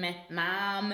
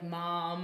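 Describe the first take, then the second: First: "mom" with a nasal Michigan vowel; nasal Michigan accent. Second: Said in the usual way. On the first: Shown as a demonstration. American demonstrating her home state, nasal Michigan accent. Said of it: "because it's so nasal". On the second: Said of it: "instead of, like".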